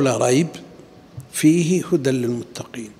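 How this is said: The pause comes after the word rayba. Only part of the book is guidance. The speaker calls it wrong. "وإذا قلت فيه هدى للمتقين معناه كأنه تخصيص لبعضه"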